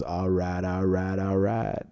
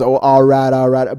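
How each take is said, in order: First: Low, soft, slow all right; a lazy, laid-back all right, lower and softer; Matthew McConaughey drawl. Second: Louder, punchy all right; Kevin Hart imitation. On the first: Retold or imitated. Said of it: "What's his name that goes". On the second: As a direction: bark it out, loud and eager. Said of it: "'cause Kevin Hart goes".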